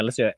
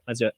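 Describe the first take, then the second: First: Talking mid-slurp of coffee. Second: Said in the usual way. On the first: Real, not acted. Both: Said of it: "Let's have a nice noisy slurp right here".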